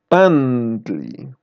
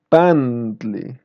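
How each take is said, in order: The two takes are said the same way.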